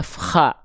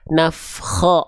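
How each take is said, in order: First: The final vowel sounds like a plain A. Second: The final vowel sounds like a thick O. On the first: The speaker calls it wrong. "bukan nafkha" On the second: The speaker calls it right. "terdengar kok malah kayak vokal O"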